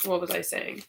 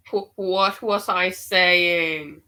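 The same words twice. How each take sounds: First: Said in the usual way. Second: Slow, louder, amazed question; startled repeat. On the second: Real, not acted. Reader stunned as spirit echoes her words, slow and amazed. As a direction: stretch it out in disbelief. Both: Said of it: "spirit confirms what I'm saying".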